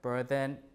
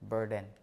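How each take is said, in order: First: The middle consonant is a voiced th sound. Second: The middle consonant is a plain d sound. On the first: This is the older pronunciation. "voice interdental fricative here" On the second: This is the later pronunciation. "becomes just the D after R and before L"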